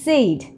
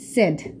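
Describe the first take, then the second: First: The vowel glides like 'say', giving 'sayd'. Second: The vowel is a short e, giving 'sed'. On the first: The speaker calls it wrong. "এর উচ্চারণকে আমরা বলি সেইড সেইড কিন্তু এটা আসলে সেইড হবে না" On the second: The speaker calls it right. "বলতে হবে সিম্পলি সেড"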